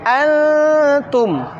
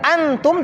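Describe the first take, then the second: First: The middle sound is held before continuing. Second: The middle sound is rushed without holding. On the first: The speaker calls it right. "Ditahan terlebih dahulu, tidak tergesa-gesa" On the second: The speaker calls it wrong. "tidak antum"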